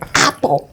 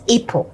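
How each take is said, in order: First: The first vowel is a short 'a'. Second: The first vowel is a long 'ay'. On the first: The speaker calls it right. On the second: The speaker calls it wrong.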